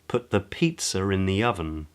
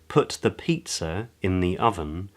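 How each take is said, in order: First: An R sound links pizza and in. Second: The words pizza and in stay separate.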